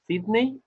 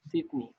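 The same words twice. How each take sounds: First: It is pronounced with Spanish sounds. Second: It is pronounced with English sounds. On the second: "In English, you say"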